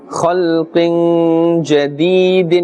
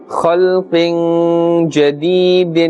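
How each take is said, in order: No difference in how they are said.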